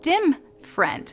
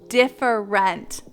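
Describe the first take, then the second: First: The syllables are rushed and blurred into one. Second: Every syllable of the word is clearly pronounced. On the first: The speaker calls it wrong. "for my entire life, I have been pronouncing it dim friend" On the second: The speaker calls it right. "I said it right that time"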